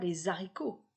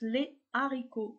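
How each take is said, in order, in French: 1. 'les' se lie à 'haricots' avec le son [z]. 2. 'les' et 'haricots' se prononcent séparément, sans liaison. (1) "Je ne dis pas" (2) "je prononce les haricots séparément"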